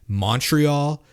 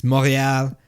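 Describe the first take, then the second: First: MONTREAL drawn out in English, with a sounded T; anglicized Montreal. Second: MONTREAL with silent T and French R; French-style Montreal. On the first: Acted. Mocking the way a schmuck says it, Montreal drawn out in English. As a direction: say Montreal slowly, the English way, MON-tree-all. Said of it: "like I'm a schmuck". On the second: Shown as a demonstration. Correcting the co-host, Montreal said the French way without the T. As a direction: say Montreal the French way, mon-ray-AL. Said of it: "I don't say Montreal like I'm a schmuck".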